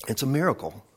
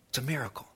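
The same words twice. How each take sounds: First: Said in the usual way. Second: Very soft, hushed wonder; hushed awe. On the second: Acted. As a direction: let it drop almost to nothing. Awed repeat, much softer.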